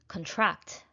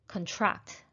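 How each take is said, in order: First: The stress is on the second syllable. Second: The stress is on the second syllable.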